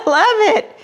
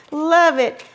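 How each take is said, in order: First: Laughing it out delighted; a giggle breaking through the words. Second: Said in the usual way. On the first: Real, not acted. Vlogger opening a friend's card, laughing delightedly.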